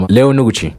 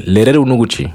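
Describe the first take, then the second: First: "Leo Noguchi" said with no rolled r; unrolled r. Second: "Lero Noguchi" with a trilled r; rolled r. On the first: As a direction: Aguan way, no trilled r in "Leo Noguchi". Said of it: "Ils vont dire un truc genre". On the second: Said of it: "avec mon accent, je dis". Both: Shown as a demonstration.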